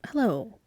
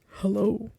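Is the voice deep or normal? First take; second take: normal; deep. First: It is said in a normal voice. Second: It is said in a very deep voice.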